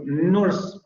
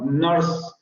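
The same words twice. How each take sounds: First: Nurse with a Spanish tapped R; R pronounced. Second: Nurse with the vowel itself r-coloured, no tapped R; rhotic vowel. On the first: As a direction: say nurse with a strong rolled R, Spanish style. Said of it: "nuestra tendencia sería a pronunciar esa R". (nurse con la R pronunciada a la española) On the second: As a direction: let the vowel in nurse carry the R sound. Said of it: "en inglés no pasa realmente eso". (nurse con vocal rótica, sin R aparte) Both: Shown as a demonstration.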